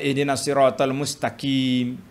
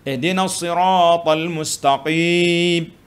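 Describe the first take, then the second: First: The q sounds close to a plain k. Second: The q is a deep back-of-throat sound. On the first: The speaker calls it wrong. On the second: The speaker calls it right.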